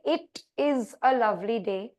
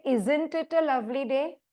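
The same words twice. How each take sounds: First: Said in the usual way. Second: Lovely day asked with a rising tune; rhetorical question. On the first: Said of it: "it's a statement". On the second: Shown as a demonstration. Teacher shows the class a rhetorical question, rising tune. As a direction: ask it lightly, expecting no answer. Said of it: "Question mark".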